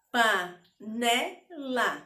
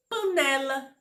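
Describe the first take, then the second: First: "panela" slowly split into three separate beats; syllable by syllable. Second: Said in the usual way. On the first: Shown as a demonstration. Teacher asking pupils to count mouth openings, "panela" broken syllable by syllable. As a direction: say "panela" with a clear gap after each syllable. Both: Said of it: "Quantas vezes eu abri a boca?".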